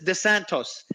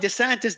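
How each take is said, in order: First: The last syllable has an 'oh' vowel. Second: The last syllable has an 'ih' vowel. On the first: The speaker calls it wrong. "He keeps calling DeSantis DeSantos" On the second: The speaker calls it right. "it's DeSantis in capital I"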